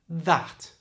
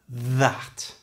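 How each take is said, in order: First: Said at normal speed without exaggerated th. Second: Said slowly with an exaggerated buzzing th. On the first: "at normal speed without that exaggeration" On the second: "say them slowly and exaggerate the sound"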